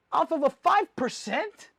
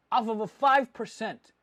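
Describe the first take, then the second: First: "five percent" high and drawn out, rising at the end; incredulous question. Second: "five percent" at usual pitch, falling to a close; falling echo. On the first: Doubting dealers' small margin, "five percent" as rising incredulous question. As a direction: ask "five percent" slowly, voice climbing in disbelief. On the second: Echoing dealers' small margin, "five percent" as falling statement. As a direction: repeat "five percent" as a statement, dropping at the end. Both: Retold or imitated.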